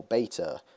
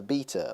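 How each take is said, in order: First: Beta said as BAY-tuh; long ay in the first syllable of beta; alternate pronunciation. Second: Beta said as BEE-tuh; long ee in the first syllable of beta; alternate pronunciation. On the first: YouTuber offering viewers the other way to say beta, pronounced BAY-tuh. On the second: YouTuber offering viewers one way to say beta, pronounced BEE-tuh. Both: Shown as a demonstration. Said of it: "however you want to pronounce it".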